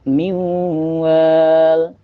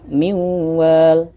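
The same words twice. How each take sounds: First: The long vowel is held for four beats. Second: The long vowel is held for two beats.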